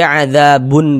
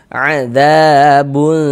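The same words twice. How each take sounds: First: The final n is pronounced clearly and briefly. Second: The final n is muffled, nasal and held. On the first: The speaker calls it wrong. "Jangan dibaca adzabun berbunyi jelas begitu" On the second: The speaker calls it right. "disamarkan. Kemudian didengungkan... kita panjangkan sejenak sepanjang dua harakat"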